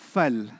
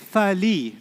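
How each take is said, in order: First: The word ends on the l sound. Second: A full vowel follows the l sound. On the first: The speaker calls it right. "they say what? Fal" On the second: The speaker calls it wrong. "they don't say fali"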